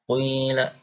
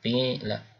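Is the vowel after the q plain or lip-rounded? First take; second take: rounded; plain. First: The first vowel is rounded toward u. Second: The first vowel is a plain, unrounded i. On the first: This is the reading of another tradition. "qui bibirnya maju ya" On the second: This is the reading of one tradition. "Qila biasa ya"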